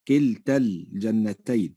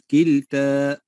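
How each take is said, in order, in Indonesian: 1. Vokal akhir pada kilta dibaca pendek. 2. Vokal akhir pada kilta dibaca panjang. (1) "وصلا تحذف الألف" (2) "نقول كلتا وقفا"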